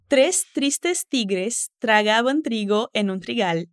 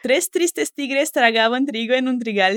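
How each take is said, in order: First: It is said slowly. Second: It is said quickly.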